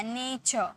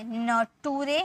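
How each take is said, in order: First: नेचर said as nay-cher with a soft final r; correct pronunciation. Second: नटूरे said letter by letter as na-too-re; wrong spelling-pronunciation. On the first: Teacher corrects students with the right reading, clear model. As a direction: give नेचर its proper nay-cher sound. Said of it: "नहीं, अर का sound आया". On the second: Teacher shows students the tempting wrong reading, spelled-out demo. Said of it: "इसे क्या हम ऐसे पढ़े?". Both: Shown as a demonstration.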